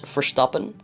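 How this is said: The name is said with a Dutch pronunciation.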